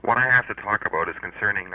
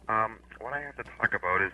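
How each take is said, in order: First: Speaking up. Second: Too quiet, barely carrying; speaking softly. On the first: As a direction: raise the voice so he hears. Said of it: "Speak up". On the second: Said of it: "Would you speak up". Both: Real, not acted.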